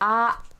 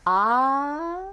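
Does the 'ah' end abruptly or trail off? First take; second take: abruptly; trails off. First: The vowel is cut off sharply in the throat. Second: The vowel fades away gradually at the end. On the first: "like it has this mm, mm, sort of ending to it" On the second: "that just kind of trails off"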